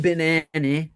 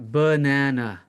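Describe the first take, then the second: First: An unstressed vowel sounds like 'ih'. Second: An unstressed vowel sounds like 'uh'. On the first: The speaker calls it wrong. "you cannot say banana. It's not an I" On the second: The speaker calls it right. "It is an uh, right?"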